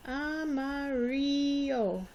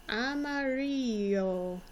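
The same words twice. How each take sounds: First: "Amarillo" stretched out slowly, "ah-mah-REE-yo", with a short O sound on each A; slow model word. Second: "Amarillo" drawn out slowly, the double L said as a Y, "ah-mah-REE-yo"; slow model word. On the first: Teacher slowly modelling "Amarillo" once more for pupils. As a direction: draw out every vowel of "Amarillo". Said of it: "The I sounds like an E". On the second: Teacher slowly modelling "Amarillo" for her pupils. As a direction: linger on the LL of "Amarillo" so it sounds like a Y. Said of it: "Do you hear an L sound?". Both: Shown as a demonstration.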